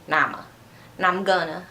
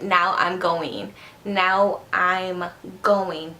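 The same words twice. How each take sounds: First: "Now I'm gonna" collapsed into "nama gonna"; "now I'm" run together as "nama"; slurred words. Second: "Now I'm going" slowly, each word separate; slow, unslurred "Now I'm going"; careful enunciation. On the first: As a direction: slur "Now I'm gonna", swallowing the end of "now". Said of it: "I always say". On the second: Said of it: "That's not a word". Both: Shown as a demonstration.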